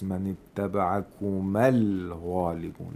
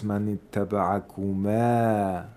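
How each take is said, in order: First: The final vowel of kuma is short. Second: The final vowel of kuma is long. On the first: "It turns into a short vowel"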